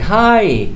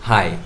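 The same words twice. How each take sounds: First: The vowel is stretched and the tone warm. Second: The vowel is short and the tone flat. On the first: The speaker is really happy to see the person. "it means you are really enthusiastic about the person" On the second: The speaker is not especially glad to see the person. "it doesn't show that you are you are uh, happy to see that person"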